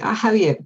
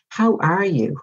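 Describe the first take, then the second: First: It is said as a casual, offhand greeting. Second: It is said slowly and sincerely, with real interest.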